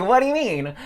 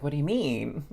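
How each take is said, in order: First: Loud, high-pitched demand; incredulous curiosity. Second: Mild puzzled question, slightly higher; curious. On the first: Retelling how she pressed the guy, loudly incredulous. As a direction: blurt it out loud and high, dying to know. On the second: Retelling her first response to the guy, curious. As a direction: ask it with restrained curiosity. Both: Retold or imitated. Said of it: "freaking curious".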